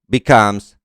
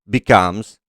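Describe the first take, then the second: No difference in how they are said.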